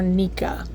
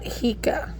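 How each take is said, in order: First: The word begins with an N sound. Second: The word begins with an H sound. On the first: The speaker calls it right. "This is pronounced either Nika" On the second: The speaker calls it wrong. "That's not how you pronounce it"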